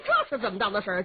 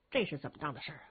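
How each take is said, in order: First: Said in the usual way. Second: Much lower, softer repeat of 这是怎么当的事儿啊; muttering to himself. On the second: Acted. The warrior mumbles the same question to himself, low and soft.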